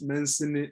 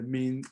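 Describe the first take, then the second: First: The word is said with an audible S sound. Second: The word is said with no S sound. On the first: The speaker calls it wrong. "So we used to call it the mens- Mencini" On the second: The speaker calls it right. "the S is silent"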